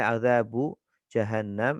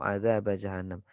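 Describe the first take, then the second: First: The first word ends in an 'u' vowel. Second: The first word ends in an 'a' vowel. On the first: The word is in the nominative case, the majority reading. "bisa dibaca bu" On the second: The word is in the accusative case, an alternative reading. "Bisa dibaca ba"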